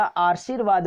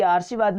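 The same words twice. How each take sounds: First: आशीर्वाद with र before व, आशीर-वाद; correct form. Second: आशीर्वाद read with the र on स, आर्शीवाद; wrong form read. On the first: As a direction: stress the र्व in आशीर्वाद. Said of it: "आशीर्वाद होता है". (सही उच्चारण आशीर्वाद) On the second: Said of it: "आशीर्वाद नहीं होता". (गलत उच्चारण आर्शीवाद) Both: Shown as a demonstration.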